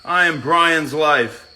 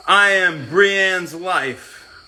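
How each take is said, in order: First: Said in the usual way. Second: Slow careful read, "Brienne's" said as pree-ANNS; sounding out "Brienne's" slowly, then fixing it; slow misreading. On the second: Real, not acted.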